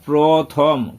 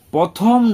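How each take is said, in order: First: প্রথম said clearly as "pro-thom", r after p; correct pronunciation. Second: প্রথম said as "pothom", the r left out; wrong pronunciation. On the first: Teacher correcting how learners say first, correctly pronounced. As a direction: sound the r in প্রথম: "prothom". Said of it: "পরে রফলা দিয়ে". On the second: Teacher showing learners the common mistake, mispronounced. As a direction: drop the r from প্রথম, making it "pothom". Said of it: "প্রথম নয়". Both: Shown as a demonstration.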